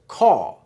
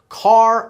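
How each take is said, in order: First: The final R sound is dropped. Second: The final R sound is pronounced. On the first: "It's caw" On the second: "it's not car"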